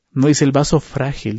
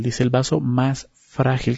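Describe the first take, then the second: First: Said in the usual way. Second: "más" lingered on, the line slowed down; stress on más. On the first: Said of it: "porque dice". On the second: Shown as a demonstration. Preacher correcting the verse for the church, stressing más. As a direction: lean hard on "más" in "el vaso más frágil".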